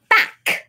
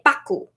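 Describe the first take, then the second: First: The word ends on a consonant sound. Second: The word ends with an added vowel sound. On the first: "Also back" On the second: "They say baku"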